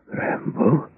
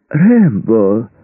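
First: Breathy, high rising question, softer; stunned disbelief. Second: High, ringing, fake-delighted call; false joy. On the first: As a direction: barely get it out, reeling from shock. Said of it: "От этих слов Мердок даже пошатнулся". (потрясённо, не веря) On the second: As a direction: greet him with overdone delight. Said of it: "В голосе Мердока звучала фальшивая радость". (с фальшивой радостью, нараспев) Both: A narrator's reading.

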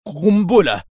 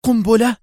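First: Shaky, falling answer, a bit louder; trembling voice. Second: High, loud incredulous question; shocked disbelief. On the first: Qadri answering the doctor, trembling. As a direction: blurt out the word with a quiver. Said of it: "بصوت مرتجف". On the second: Doctor echoing Qadri in alarmed disbelief. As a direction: echo the word in outraged shock. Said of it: "وهو يهتف مستنكرا". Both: A narrator's reading.

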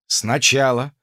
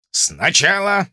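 First: Said in the usual way. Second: Raised, slow officer's order; commanding instructor. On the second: Acted. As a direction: say it like an officer teaching drill. Drozd's instruction, second take.

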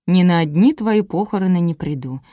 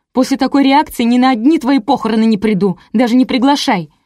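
First: Said in the usual way. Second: High, heated parting shot; angry outburst. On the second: A narrator's reading. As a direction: declare it loudly as you storm off. Friend storms off in a huff. (возмущённо, на повышенных тонах)

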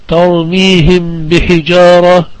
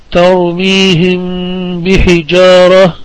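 First: Said in the usual way. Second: "ترميهم بحجارة" recited slowly, the final م of ترميهم held as a hum into the ب; slow Quranic reading of "ترميهم بحجارة" with a lingering ghunna on م; ikhfa shafawi recitation. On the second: Shown as a demonstration. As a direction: draw out the hummed م before the ب in "ترميهم بحجارة". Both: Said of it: "تقرأ".

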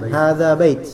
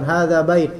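First: "bait" with an audibly released final t; final t sounded. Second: "bait" with the last consonant stopped dead, no release; final t swallowed. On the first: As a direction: let the t of "bait" puff out. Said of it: "ingat caknya". ("bait" dengan bunyi ta yang jelas di akhir) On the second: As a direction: clip off the t of "bait". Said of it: "kurang tepat". ("bait" tanpa letupan ta di akhir) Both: Shown as a demonstration.

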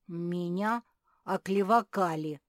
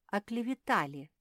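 First: Loud protest, "оклевакали" with "ка" in place of "ве-та"; indignant, garbled word. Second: "оклеветали" said properly, higher and louder, with "ве-та"; correcting the word. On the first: Фил protests being slandered, indignantly garbling it as "оклевакали". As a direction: protest loudly, mangling it as "оклевакали". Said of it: "возмутился Фил". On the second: Софи corrects Фил's word, pronouncing "оклеветали" properly. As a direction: give "оклеветали" as a firm correction. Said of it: "поправила Софи". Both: A narrator's reading.

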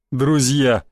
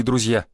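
First: Drawn-out mocking repeat of "друзья"; sneering echo. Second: Said in the usual way. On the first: A narrator's reading. Mercenary throwing the word back at a newcomer, sneering. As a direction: stretch "друзья" out with scorn. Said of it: "оскалился один из них".

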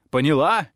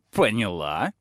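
First: Louder, higher repeat of the question; a raised insistent question. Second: Said in the usual way. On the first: A narrator's reading. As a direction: press her with a louder question. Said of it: "ещё громче". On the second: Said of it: "добавил, ещё громче".

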